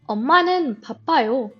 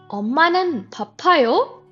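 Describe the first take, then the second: First: The voice falls at the end. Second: The voice rises at the end. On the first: It states that mom is busy. "Mom is busy" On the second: It asks whether mom is busy. "Is mom busy?"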